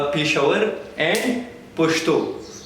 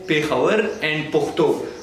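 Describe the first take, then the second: First: It uses the soft Pashto dialect, with sh sounds. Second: It uses the hard Pashto dialect, with kh sounds.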